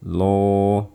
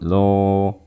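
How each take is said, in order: The two takes are said the same way.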